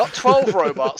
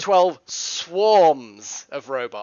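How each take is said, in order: First: "twelve" punched loud, high and slow; stress on twelve. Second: Slow, loud, "swarms" weighted as the fix; stress on swarms. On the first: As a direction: hit "twelve" hard, slow and loud as a correction. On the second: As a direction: draw out "twelve swarms of robots" slowly to correct. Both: Shown as a demonstration.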